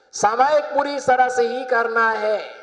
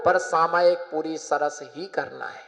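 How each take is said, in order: First: Emphatic repeat. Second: Said in the usual way. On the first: Real, not acted. Preacher restating the rule to the congregation, emphatic.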